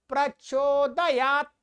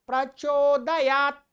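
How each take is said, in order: No difference in how they are said.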